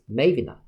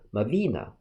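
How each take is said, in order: First: The stress is on the first syllable. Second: The stress is on the second syllable. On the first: "the other's stress syllable is in the first one, read as Mavina" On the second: "stress is in the second syllable read as Mavina"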